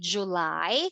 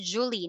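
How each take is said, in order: First: The word is said sounding like 'July'. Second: The word is said sounding like 'Julie'. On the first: The speaker calls it right. "not Julie. July" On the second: The speaker calls it wrong. "Some Vietnamese, they call this Julie"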